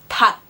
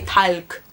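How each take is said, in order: First: The word ends with only a K sound. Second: The word has an L sound before K. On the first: The speaker calls it right. "you only pronounce the K" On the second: The speaker calls it wrong. "You don't say talk"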